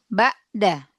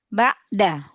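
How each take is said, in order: No difference in how they are said.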